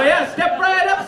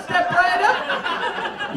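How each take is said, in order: First: High, loud barker's cry, a bit slow; hammed-up sideshow pitch, belting it; a barker hollering at the crowd at a carnival game, loud and high; carnival barker call. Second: High, very slowly stretched barker's call; milk each word like a showman; a barker luring the crowd to the funny-face game, stretched and slow; drawn-out carnival barker. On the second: Retold or imitated. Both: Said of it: "make that into a carnival game".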